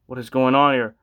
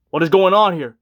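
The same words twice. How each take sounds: First: Said in the usual way. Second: Louder, exasperated second take; louder exasperation. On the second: Retold or imitated. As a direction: push it out in disbelief. Repeated exasperated question.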